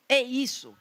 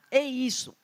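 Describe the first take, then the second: No difference in how they are said.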